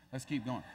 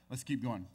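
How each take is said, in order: First: Said in the usual way. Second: Let's keep going said lower, in the dopey king voice; a hint of the duh king moving on; sheepish echo. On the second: The king of Israel sheepishly moving on, lower.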